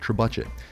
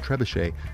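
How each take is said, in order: First: It is said the American way. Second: It is said the French way.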